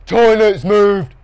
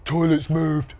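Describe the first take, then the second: First: High, loud, drawn-out repetition; louder repeat. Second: Said in the usual way. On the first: A narrator's reading. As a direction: say it slowly and loudly for someone who missed it. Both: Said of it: "a bit louder".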